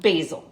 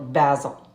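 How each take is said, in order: First: It is pronounced the American way. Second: It is pronounced the British way. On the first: "in America, we call it basil" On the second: "in the U K, they call it basil"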